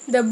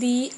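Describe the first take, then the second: First: 'The' is said with a short, weak 'uh' vowel. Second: 'The' is said with a long 'ee' vowel. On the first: The next word begins with a consonant. "द हम वहाँ use करते हैं जहाँ पर consonant होता है" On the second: The next word begins with a vowel. "दी हम वहाँ यूज़ करते हैं जहाँ पर वाउल होता है"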